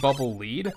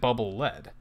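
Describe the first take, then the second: First: Lead is said with a long ee vowel. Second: Lead is said with a short e vowel. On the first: The weapon guides you along the ground. "the weapon kind of, like, follows the ground. It kind of, like, leads you" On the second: The weapon hits as hard as the metal. "As in, it hits as hard as lead"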